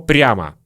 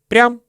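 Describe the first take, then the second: First: The word is said in full with its final vowel. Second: The word is shortened, dropping its final vowel. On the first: "Слово прямо" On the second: "Мы часто произносим как прям"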